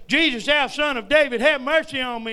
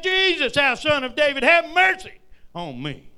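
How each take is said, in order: First: A loud, higher plea that still holds something back; a loud beggar's cry for mercy, not yet at full force. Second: Much higher, loud desperate cry; crying louder. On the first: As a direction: call out to Jesus from the roadside, pleading. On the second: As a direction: belt it out so Jesus hears over the crowd. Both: Retold or imitated. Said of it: "he cried the louder".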